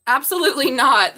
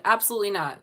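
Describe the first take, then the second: First: Loud, startled absolutely not; surprised outburst. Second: Said in the usual way. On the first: Real, not acted. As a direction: blurt it out in shock. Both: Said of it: "That popped out right in my hand".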